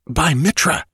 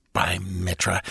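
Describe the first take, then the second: First: By Mitra snapped out higher with a rising end; sharp exclamation. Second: Hushed oath. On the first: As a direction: jolt everyone with a startled By Mitra. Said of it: "the electric quality of the exclamation". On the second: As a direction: murmur By Mitra under the breath. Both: Acted.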